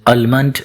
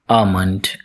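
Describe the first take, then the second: First: The L sound is pronounced after the first vowel. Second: The L sound is left out after the first vowel. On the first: The speaker calls it wrong. "Many people mispronounce it as almond" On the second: The speaker calls it right. "L is not pronounced in this word"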